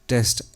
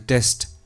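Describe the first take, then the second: Both takes have the same delivery.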